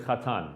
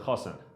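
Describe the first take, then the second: First: It is said in a Modern Hebrew pronunciation. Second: It is said in an Ashkenazi Hebrew pronunciation.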